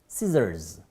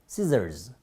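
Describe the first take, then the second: The two takes are said the same way.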